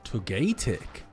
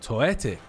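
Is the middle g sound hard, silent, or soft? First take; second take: hard; silent. First: The middle g is a hard g. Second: The middle g is not pronounced.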